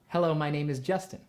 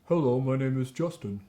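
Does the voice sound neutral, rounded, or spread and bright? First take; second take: spread; rounded. First: It is said with a spread, brighter, squeezier resonance. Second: It is said with rounded, darker resonance. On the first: "Now I'd like you to spread" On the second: "pucker your lips and say"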